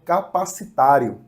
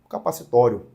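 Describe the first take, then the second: First: The stressed vowel before the ending is 'a'. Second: The stressed vowel before the ending is 'o'. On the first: "As duas pronúncias são aceitas nesse sentido" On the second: "As duas pronúncias são aceitas nesse sentido"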